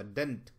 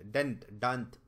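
First: डेंट with a short e and a light rise; correct sound. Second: डेंट said with short e, then डांत with a long a as the wrong form; right and wrong sound. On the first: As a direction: give the right vowel, not the wrong one. (सही उच्चारण डेंट, हल्का ऊपर उठता) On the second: (सही डेंट और ग़लत डांत का फ़र्क़) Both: Shown as a demonstration. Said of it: "डांत नहीं होता".

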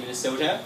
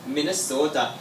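First: Said in the usual way. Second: Imitated Minnesota accent on "Minnesota". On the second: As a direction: say "Minnesota" with a long local Minnesotan o. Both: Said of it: "that's how they say it over there".

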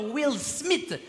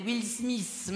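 First: Said in the usual way. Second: Smith with the final th turned into a hissed s; mocked French-speaker English. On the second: Comic mocking European fans' English, "Smith" pronounced "Smiss". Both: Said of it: "C'est quoi cet accent de merde?".

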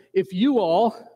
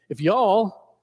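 First: Said in the usual way. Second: Light attempt at a Southern drawl. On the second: Shown as a demonstration. Preacher trying out Southern for the congregation, light drawl. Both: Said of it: "we can say that in the Southern drawl".

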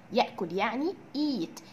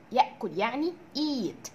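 No difference in how they are said.

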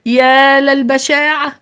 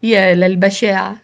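First: High, drawn-out cry of bitter dismay; anguished exclamation, stretched and raised. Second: Restrained bitter dismay; understated horror, held in; bitter exclamation. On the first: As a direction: wail it slowly in bitterness. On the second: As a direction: exclaim bitterly, without raising the pitch. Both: A narrator's reading. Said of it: "وفي مرارة هتف القائد الأعلى".

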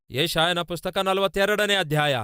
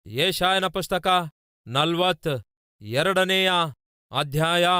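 First: Said in the usual way. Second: Very slow, with pauses between the words; dictation-pace scripture citation; slow, deliberate repeat. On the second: Real, not acted. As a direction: announce the reference slowly so listeners can find it. Reference repeated slowly for listeners.

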